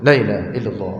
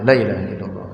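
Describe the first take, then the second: First: The vowel of the first word is cut short. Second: The same.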